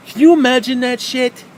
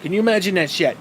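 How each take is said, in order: First: Loud, high, exasperated; ranting shout at the picture; incredulous outburst. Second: Said in the usual way. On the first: Real, not acted. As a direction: blow up at the absurd idea. Repeated, much louder and higher.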